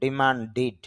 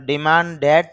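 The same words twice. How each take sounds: First: ডিমান্ডিড with a short i in the last syllable, -did; short i ending. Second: ডিমান্ডেড with a clear e sound in the final syllable, the wrong way; wrong e ending. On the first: Teacher giving students the correct pronunciation, plain demo. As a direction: end ডিমান্ডিড on a short i before the d. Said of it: "রস্বইকারের মতো উচ্চারণ হবে". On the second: Teacher showing students the mistaken pronunciation, plain demo. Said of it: "না হয়ে উচ্চারণ হচ্ছে". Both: Shown as a demonstration.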